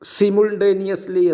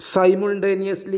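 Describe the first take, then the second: First: It is said with a British pronunciation. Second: It is said with an American pronunciation. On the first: "British പ്രൊനൗൺസിയേഷനാണ്" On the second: "American പ്രൊനൗൺസിയേഷനാണ്"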